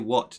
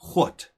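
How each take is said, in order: First: It is said in a plain, everyday accent. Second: It is said in a drawn-out Texan accent. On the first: "They don't say what" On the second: "They go, what"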